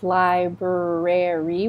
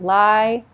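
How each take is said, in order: First: Every R sound in the word is pronounced. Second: One of the R sounds is dropped. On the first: The speaker calls it wrong. "We don't pronounce that all the R's" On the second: The speaker calls it right. "We don't need to do that"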